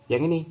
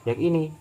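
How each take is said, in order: The two takes are said the same way.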